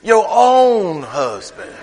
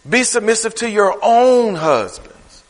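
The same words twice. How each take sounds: First: Very slow, "own" stretched and hit hard; "own" held long, phrase slowed right down; stress on own. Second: Slow, leaning on "own"; "own" drawn out and weighted; stress on own. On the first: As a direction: slowly punch "own" in "Your own husbands". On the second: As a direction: read it slowly and press the word "own". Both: Shown as a demonstration. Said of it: "He emphasized that thing".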